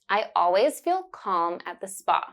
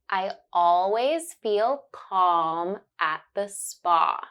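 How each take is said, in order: First: It is said at a normal conversational speed. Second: It is said slowly, stretching the vowel sounds. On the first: "Then you will hear it naturally" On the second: "First, I will say it slowly and focus on the sound"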